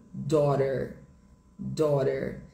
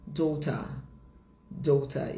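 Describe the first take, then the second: First: American "daughter", tapped T and sounded R; sotaque americano. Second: British "daughter", crisp T, no R; sotaque britânico. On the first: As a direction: say "daughter" as "daw-der", American. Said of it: "no inglês americano fica". (sotaque americano, T batido e R final) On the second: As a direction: say "daughter" as "daw-tah", British. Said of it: "Em inglês britânico". (sotaque britânico, T claro, sem R) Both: Shown as a demonstration.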